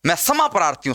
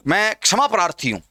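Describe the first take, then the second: First: समा, the k-sh reduced to plain s; s for ksha. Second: क्षमा with a clear k-sh cluster; correct ksha. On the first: Teacher shows the faulty apology phrase, s-initial समा. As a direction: say kshama as समा, no k. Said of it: "समा प्रार्थी नहीं हूं". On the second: Teacher models the apology phrase, proper ksh in क्षमा. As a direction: sound the k at the start of क्षमा. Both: Shown as a demonstration.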